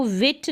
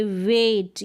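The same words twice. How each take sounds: First: "विट" with a short vowel; short wrong vowel. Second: "वेट" with a long, held A. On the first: Teacher showing how not to say it, short vowel. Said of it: "इसको विट नहीं बोलेंगे". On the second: Teacher modelling the AI sound, long A. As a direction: stretch the vowel in "वेट". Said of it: "इसका उच्चारण long होगा". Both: Shown as a demonstration.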